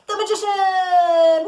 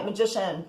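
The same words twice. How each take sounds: First: Big drawn-out announcement, higher and louder; dramatic reveal. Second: Said in the usual way. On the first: Real, not acted. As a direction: unveil the card with a flourish. Dramatic reveal of tarot card.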